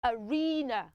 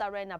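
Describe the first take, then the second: First: "arena" as "uh-REE-nuh"; long ee in the middle of "arena"; correct pronunciation. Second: "arena" with short e, "a-REN-uh"; wrong pronunciation. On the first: Teacher giving children the right way, correct pronunciation. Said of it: "Pronounce it as". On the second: Teacher rejecting the mistake, wrong pronunciation. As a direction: say "arena" to rhyme with "henna", lower. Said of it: "It's not pronounced". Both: Shown as a demonstration.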